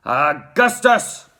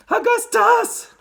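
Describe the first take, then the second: First: Loud, drawn-out father's cry; slow, forceful man's call; Mister Gloop. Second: Very high, drawn-out cry; loud, piping woman's call; Missus Gloop. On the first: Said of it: "cried Mister Gloop". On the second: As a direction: shriek it like a frantic mother. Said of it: "cried Missus Gloop". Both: A narrator's reading.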